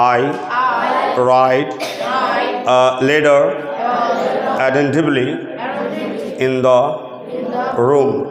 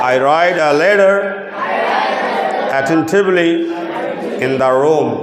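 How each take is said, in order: First: The sentence is spoken slowly. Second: The sentence is spoken quickly. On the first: "আমি আস্তে আস্তে বলে" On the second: "এখন আমরা যদি তাড়াতাড়ি বলি একসাথে"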